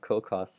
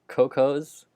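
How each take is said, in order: First: It does not sound like plural cocoa. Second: It sounds like the plural of cocoa. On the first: The speaker calls it wrong. "I've been saying it Cocos this whole time" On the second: The speaker calls it right. "It's pronounced as the plural form of cocoa"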